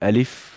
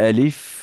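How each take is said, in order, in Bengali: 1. শেষ ধ্বনিতে দুই ঠোঁট আলাদা থাকে। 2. শেষ ধ্বনিতে দুই ঠোঁট আলাদা থাকে।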